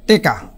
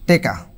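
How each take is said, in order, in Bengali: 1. প্রথম স্বরধ্বনি 'e', মাঝে 'k' আছে। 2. প্রথম স্বরধ্বনি 'e', মাঝে 'k' আছে।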